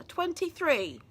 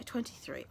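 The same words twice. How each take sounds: First: "Twenty-three" pitched up and drawn into a fall; emphatic disbelief. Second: Said in the usual way. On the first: Real, not acted. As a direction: stress "Twenty-three" higher, as if appalled by it. Repeats age, rueful at herself.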